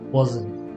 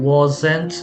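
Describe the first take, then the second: First: The t sound is dropped. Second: The t sound is fully pronounced. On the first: "tea dropping ... it's gonna be wasn't" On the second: "instead of saying wasn't"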